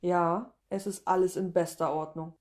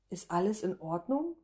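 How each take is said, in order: First: Mildly honeyed reassurance, even tune; sweetly purred. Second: ORDNUNG rising steeply as a question; concerned question. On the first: Applicant covering her distraction before the interviewer, sweetly reassuring. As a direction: reassure sweetly, settling down at the end. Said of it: "säusle ich". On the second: Interviewer checking on distracted applicant, questioning rise on "Ordnung". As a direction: ask it with the voice climbing on "Ordnung". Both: A narrator's reading.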